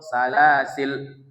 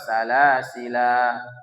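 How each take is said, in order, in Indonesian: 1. Kata ini berakhir dengan konsonan, vokal akhirnya dibuang. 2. Kata ini berakhir dengan vokal akhir yang dipanjangkan. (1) "itu namanya hadzf" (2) "alifnya dibaca"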